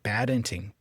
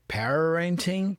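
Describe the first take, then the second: First: The R is a quick tongue flap. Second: The R is curled with the tongue. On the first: "but parenting, parenting. Da, da. He's flapping the R here" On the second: "he's not really curling the R for the R, like parenting"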